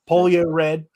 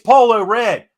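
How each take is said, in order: First: The first word is said as 'polio'. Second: The first word is said as 'polo'. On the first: The speaker calls it wrong. "I said it wrong on purpose" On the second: The speaker calls it right. "it's Polo Red"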